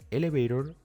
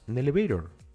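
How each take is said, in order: First: The word begins directly with a vowel sound. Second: The word begins with a linked n sound. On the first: "en vez de pronunciar elevator" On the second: "diríamos nelevator"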